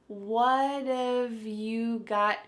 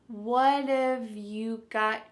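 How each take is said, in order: The two takes are said the same way.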